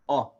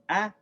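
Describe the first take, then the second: First: The vowel sounds full and heavy. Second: The vowel sounds light and thin. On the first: "we say ah" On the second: "Instead of ah"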